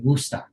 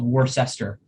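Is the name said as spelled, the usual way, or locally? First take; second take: locally; as spelled. First: It is said in a strong local accent. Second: It is sounded out the way it is written. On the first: "if you're somebody who truly grew up there, you might say Worcester" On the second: "it maybe is spelled Worcester"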